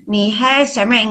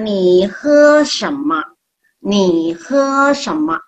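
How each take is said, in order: First: Ni he sheme with a front "e" ending, slow; wrong reading of shema. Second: Ni he shema slowly, ending in an open "ma"; correct Mandarin shema. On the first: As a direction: show the common mistake. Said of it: "nggak ada itu". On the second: Teacher models ni he shema slowly for the class. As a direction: drawl the phrase out clearly. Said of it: "Jadi jangan ni he sheme". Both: Shown as a demonstration.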